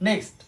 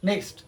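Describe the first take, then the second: No difference in how they are said.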